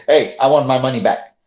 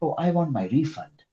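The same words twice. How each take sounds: First: Blunt, demanding request; rude demand. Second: Softer, courteous asking; polite customer tone; polite request. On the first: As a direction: demand your money back rudely. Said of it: "now look at my tone when I say". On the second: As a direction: ask nicely for the refund, softer. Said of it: "Now my tone is better". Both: Shown as a demonstration.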